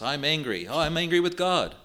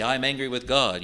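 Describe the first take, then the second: First: Mock a complacent modern believer, pitch rising on the second "angry"; hammed-up self-pitying "Oh, I'm angry with God"; lightly mocking a fashionable complaint; mocking whine. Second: Said in the usual way. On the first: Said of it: "as if that's all right". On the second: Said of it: "You hear that in modern circles".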